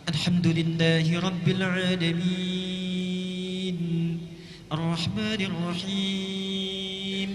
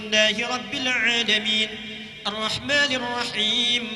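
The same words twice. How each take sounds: First: It is recited slowly with long, drawn-out vowels. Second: It is recited fast with short vowels.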